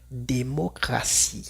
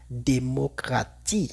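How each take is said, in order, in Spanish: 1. La consonante antes de -ie suena como s. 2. La consonante antes de -ie suena como t. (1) "la T se escucha igual a una S" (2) "Una persona que no sabe diría démocratie"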